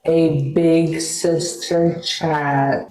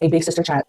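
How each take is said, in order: First: Very slow, stretched-out words; drawn-out catchphrase. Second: Said in the usual way. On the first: Pretend. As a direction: stretch every word out like a slogan.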